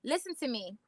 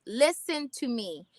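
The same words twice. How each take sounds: First: Said in the usual way. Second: Slow, deliberate, every word weighted; said slowly for emphasis; slow emphatic. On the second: Shown as a demonstration. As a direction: lean in and land each word.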